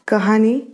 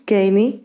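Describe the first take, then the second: First: An h sound is heard in the middle. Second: No h sound is heard in the middle.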